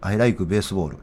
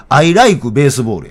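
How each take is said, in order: First: Said in the usual way. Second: Slow, emphatic Osaka intonation on English; Osaka-accented English. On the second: Shown as a demonstration. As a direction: insist on the Osaka accent, stretching the words out. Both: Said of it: "いや、違う".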